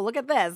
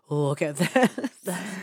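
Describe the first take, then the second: First: It is said in a light, casual tone. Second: It is said in a leering, suggestive tone. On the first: He just happened upon it while channel surfing. "he was just, like, flipping through the channels and was like, ooh" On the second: He was watching with a creepy, lustful interest. "Not like"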